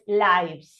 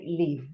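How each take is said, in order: First: "lives" with an "eye" vowel, rhyming with "hives"; noun plural pronunciation. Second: "live" with a short i, as in "give"; verb pronunciation. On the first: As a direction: sound the v in "lives" after a long "eye". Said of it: "it's pronounced as lives". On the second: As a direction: say "live" with an i sound, not "eye". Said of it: "it's pronounced like live". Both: Shown as a demonstration.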